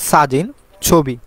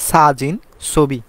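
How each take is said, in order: The two takes are said the same way.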